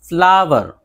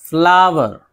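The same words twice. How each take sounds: No difference in how they are said.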